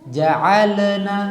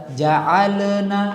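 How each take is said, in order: No difference in how they are said.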